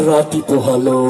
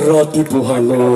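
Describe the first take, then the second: The two takes are said the same way.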